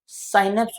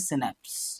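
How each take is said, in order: First: The first vowel is the diphthong 'ai'. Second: The first vowel is a short 'i'. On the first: "साइनेप्स बोल देते हैं कुछ लोग" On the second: "इसको बोला जाता है सिनेप्स"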